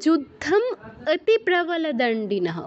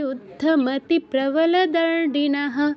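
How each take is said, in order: First: A break separates yuddham from the following words. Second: The words run together quickly without any break. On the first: The compound is split into its parts. "অতি প্রবল দণ্ডিনঃ একসাথে বলতে হবে, আর যুদ্ধমটাকে আলাদা করে ফেলতে হবে।" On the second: The words are kept joined together. "দ্রুত বলে যেতে হবে"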